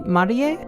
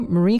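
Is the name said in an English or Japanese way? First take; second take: Japanese; English. First: The name is said with Japanese pronunciation. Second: The name is said with English pronunciation. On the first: The speaker calls it right. "her first name is actually" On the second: The speaker calls it wrong. "people who don't speak Japanese just get like confused"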